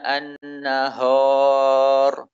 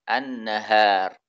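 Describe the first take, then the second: First: The h sound is heavy and thick. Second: The h sound is light and thin. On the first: The speaker calls it wrong. "Contoh yang salah dengan menebalkan ha" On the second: The speaker calls it right. "suara yang keluar adalah tipis"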